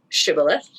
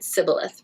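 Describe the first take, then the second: First: The word begins with an sh sound. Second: The word begins with an s sound. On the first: The speaker belongs to the group. "the insiders pronounced it shibboleth" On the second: The speaker is an outsider. "the outsiders pronounced it sibboleth"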